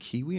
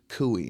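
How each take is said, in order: First: The first syllable has an 'ee' vowel. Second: The first syllable has an 'oo' vowel. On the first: The speaker calls it right. "that's how it's pronounced" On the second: The speaker calls it wrong. "what cooey?"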